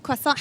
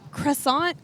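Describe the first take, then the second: First: Croissant said the French way, kwa-SAHN with no R; French-style croissant. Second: Croissant said the American way, kruh-SAHNT with an R; Croissant anglicized, R sounded, t dropped. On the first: Host trying the French way of saying croissant. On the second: Host offering the English way of saying Croissant. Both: Shown as a demonstration. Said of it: "How do you say it right?".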